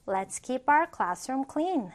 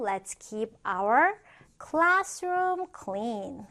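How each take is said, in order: First: Said in the usual way. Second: Slow, spaced-out teacher reading with a pause before "classroom"; slow model reading. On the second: Shown as a demonstration. Teacher models a classroom example sentence for learners, slowly. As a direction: stretch each word for learners to follow.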